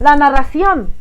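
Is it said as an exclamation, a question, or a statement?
exclamation. It is said with an excited, exclaiming tune. Someone shows surprise or admiration. "si tiene signos de exclamación"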